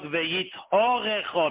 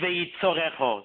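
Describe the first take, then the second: First: The word is said with the h sound. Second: The word is said without the h sound. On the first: The word keeps its blessing of plentiful livelihood. The speaker calls it right. "mit der Hey" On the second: Dropping the letter changes the word's meaning for the worse. The speaker calls it wrong. "sag nicht"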